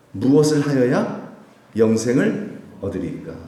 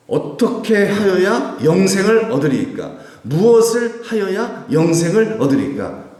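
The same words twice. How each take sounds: First: Said in the usual way. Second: High, loud and slow, stretched-out delivery; declaimed challenging question. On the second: Retold or imitated. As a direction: declaim it as a testing challenge to a teacher. Acts out law teacher's testing question.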